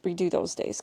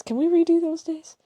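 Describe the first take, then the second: First: Said in the usual way. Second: Higher, begging lilt; pleading whine. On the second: Real, not acted. To her co-host, wishing the trip back, pleading whine.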